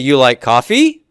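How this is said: The pitch rises at the end. It is a question. "I go up with that tone, I'm asking a question"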